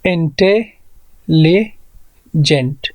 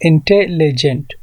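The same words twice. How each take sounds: First: इंटेलिजेंट broken into इंटे, लि, जेंट with long gaps; very slow इंटेलिजेंट, pausing between the parts; syllable by syllable. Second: इंटेलिजेंट in quick connected beats, इंटे-लि-जेंट; syllable by syllable. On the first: Teacher asking how many syllables, इंटेलिजेंट split with long pauses. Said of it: "इस इंटेलिजेंट में कितने syllables हैं?". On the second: Teacher confirming three syllables, इंटेलिजेंट in short even beats. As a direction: count out इंटेलिजेंट without long gaps, rising at the end. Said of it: "तो यहाँ पर three syllables हैं". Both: Shown as a demonstration.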